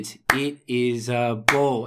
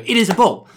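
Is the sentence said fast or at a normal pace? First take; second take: normal; fast. First: The sentence is said at a normal, steady pace. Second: The sentence is said quickly, at a faster pace. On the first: "you just prompt him by doing the pace" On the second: "Let's challenge her to say it faster"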